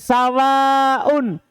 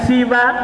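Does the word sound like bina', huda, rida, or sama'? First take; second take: sama'; rida. First: Short a vowel first, long ending with glottal. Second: Short i vowel first, short open ending. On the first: "sawaun seperti samain" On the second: "siwa karido, seperti kata ridho"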